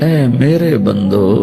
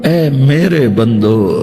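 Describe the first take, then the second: No difference in how they are said.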